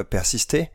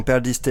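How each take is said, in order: First: Persister said as a French word, no Spanish accent; mispronounced title, French style; wrong title. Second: Perdiste said properly, per-DIS-te, after a slip; corrected title. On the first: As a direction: read Persister as plain French by mistake. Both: Real, not acted. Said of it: "ah oui, j'ai dit Persister".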